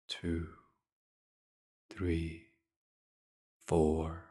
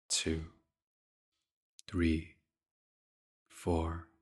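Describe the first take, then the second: No difference in how they are said.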